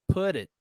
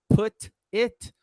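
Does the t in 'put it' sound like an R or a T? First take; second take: R; T. First: The t sounds like a quick r, linked. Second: The t is a clear, separate t sound. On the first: "E aconteceu com put também" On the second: "Ao invés de falar put it"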